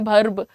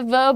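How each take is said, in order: First: The word begins with a 'bh' sound. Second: The word begins with a 'v' sound. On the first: "एक होता है भर्ब" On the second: "एक होता है वर्ब"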